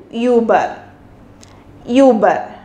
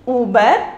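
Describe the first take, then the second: First: Uber with ü, lips rounded for ee; German über. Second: Said in the usual way. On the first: Shown as a demonstration. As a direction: say Uber with umlaut ü. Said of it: "with umlaut, it changed into U". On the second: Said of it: "Without umlaut, we are pronounced as".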